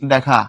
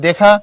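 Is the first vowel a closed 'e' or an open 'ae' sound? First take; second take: open ae; closed e. First: The first vowel is an open 'ae' sound. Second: The first vowel is a closed 'e' sound. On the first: This is how the word is read aloud. "পড়ার সময় পড়ি দেখা" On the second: This is how the word is written. "লেখার সময় লিখি দেখা"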